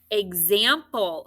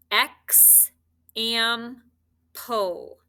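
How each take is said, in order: First: Said in the usual way. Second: "X, am, pull" as three separate syllables: eks, am, pul. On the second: Shown as a demonstration. Teacher scoops example for spelling, syllable by syllable. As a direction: pause clearly between "X", "am" and "pull". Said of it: "So when you scoop it".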